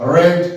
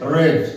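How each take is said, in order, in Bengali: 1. স্বরধ্বনিটি হ্রস্ব, 'red'-এর মতো। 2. স্বরধ্বনিটি হ্রস্ব, 'red'-এর মতো।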